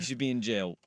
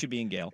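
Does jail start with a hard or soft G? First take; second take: soft; hard. First: Jail starts with a soft j sound. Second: Jail starts with a hard g sound.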